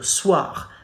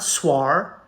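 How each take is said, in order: First: The vowel is pronounced as wa. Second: The vowel is pronounced as separate O and I. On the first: The speaker calls it right. "The two letters O and I combined together make the sound wa" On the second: The speaker calls it wrong. "not soir"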